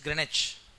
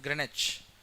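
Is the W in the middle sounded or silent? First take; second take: silent; silent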